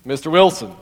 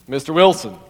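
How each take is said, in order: First: It is said in a deep voice. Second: The same.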